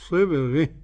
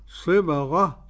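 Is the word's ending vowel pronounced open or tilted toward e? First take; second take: tilted; open. First: The ending vowel is tilted toward an e. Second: The ending vowel is an open a sound. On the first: "والإمالة" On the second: "بالفتح"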